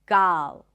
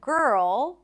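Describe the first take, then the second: First: The vowel is an open ah sound. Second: The vowel is an r-colored er sound. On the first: The speaker calls it wrong. "they might say something like gal" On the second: The speaker calls it right. "So instead of girl"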